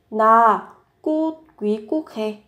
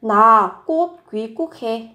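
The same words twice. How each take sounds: First: Teaching read broken by clear pauses; word by word. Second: Said in the usual way. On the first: Shown as a demonstration. Teacher models the Korean sentence for learners, word by word.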